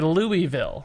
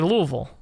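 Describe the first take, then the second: First: It is pronounced the way an outsider says it. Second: It is pronounced the way a local says it. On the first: The speaker is not from the city. The speaker calls it wrong. "Somebody not from Louisville would say Louisville. It'd sound weird" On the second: The speaker is from the city. The speaker calls it right. "a real Louisvillian would say Louisville"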